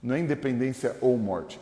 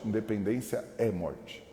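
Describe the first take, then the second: First: Said in the usual way. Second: É leaned on, slow and softer; slow down and weigh the word é; stress on é. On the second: Shown as a demonstration. Pastor correcting the slogan with a slow stressed é.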